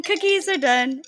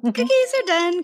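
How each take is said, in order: First: Cookies are done, drawn out slowly; slow announcement. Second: Cookies are done, said through a laugh; laughing announcement. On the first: Repeating to the co-host that the cookies are done, slowly. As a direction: spell it out slowly for emphasis. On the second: Calling to the podcast host that the cookies are done, through a laugh. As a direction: laugh it out as you call the news. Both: Real, not acted.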